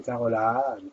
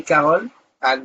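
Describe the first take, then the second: First: Said in the usual way. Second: "Carole Anne" as two separate words; name split in two. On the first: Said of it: "c'est quand je les entends". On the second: Shown as a demonstration. Host shows how she misheard the name, "Carole Anne" split in two. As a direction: break between "Carole" and "Anne". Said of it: "C'est quotient auditif".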